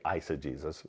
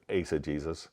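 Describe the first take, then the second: First: The word is pronounced with common English vowels. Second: The word is pronounced with Latin-style vowels. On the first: "some people say" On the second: "I pronounce the word with, uh, from a Latin perspective"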